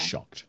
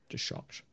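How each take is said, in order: First: Said in the usual way. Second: Hushed whispered repeat. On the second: Shown as a demonstration. GM repeating for the table, whispered. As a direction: breathe it as a secret.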